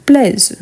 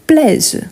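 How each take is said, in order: Both takes have the same delivery.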